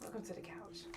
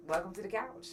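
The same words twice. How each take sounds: First: "Welcome to the couch" breathed as a soft whisper. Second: Said in the usual way. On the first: Shown as a demonstration. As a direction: hush it like a secret greeting. Repeated show-title line.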